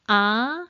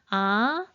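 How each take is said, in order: First: The pitch rises from middle to high. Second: The same.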